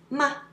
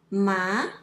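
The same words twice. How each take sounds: First: The syllable is short, light and unstressed. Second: The pitch rises from middle to high. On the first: It is a question word. "The last one is neutral tone. It's ma. It's a question word" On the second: It means numb. "it means numb.It's second tone"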